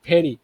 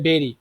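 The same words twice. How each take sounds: First: It starts with teeth on the lip. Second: It starts with a Bengali bh sound. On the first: The speaker calls it right. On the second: The speaker calls it wrong.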